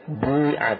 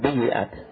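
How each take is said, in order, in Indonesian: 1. Bunyi ya tidak diikuti vokal. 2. Bunyi ya diikuti vokal i. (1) "ini ya-nya bukan di kasrah, ya, di sukun" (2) "bukan bi'at"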